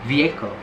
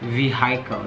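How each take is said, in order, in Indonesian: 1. Tidak ada bunyi h yang diucapkan di tengah. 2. Bunyi h diucapkan di tengah. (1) "huruf H-nya nggak dibaca" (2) "Sometimes kita dengar orang-orang bilangnya vehicle"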